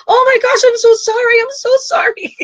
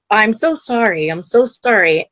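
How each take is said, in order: First: Much higher, crying out sorry through tears; crying apology. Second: Said in the usual way. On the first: Acted. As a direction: sob out the apology, voice cracking high. Souls breaking down apologizing.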